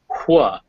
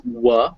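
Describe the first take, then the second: First: A breathy h comes before the w. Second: It is a plain w with no h. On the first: "the other was hua" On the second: "One was w"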